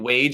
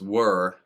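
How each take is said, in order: First: The name is said like "wage", ending in a j sound. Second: The name is said like "wur", with no final consonant. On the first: The speaker calls it wrong. "if you've been pronouncing it wage all of this time, you're probably wrong" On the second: The speaker calls it right. "he said that it's were, like W U R"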